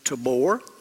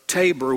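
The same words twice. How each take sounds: First: Tabor is said with an Israeli pronunciation. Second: Tabor is said with an American English pronunciation. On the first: This is how people in the country say it. "They would pronounce it Tabor" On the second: This is how English speakers here say it. "we would call it"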